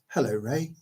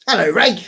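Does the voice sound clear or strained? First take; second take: clear; strained. First: The voice sounds clear and normal. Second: The voice sounds strained, like a sore throat. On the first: The speaker calls it right. "That's better" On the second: The speaker calls it wrong. "I always say it like that as well when I hurt my throat"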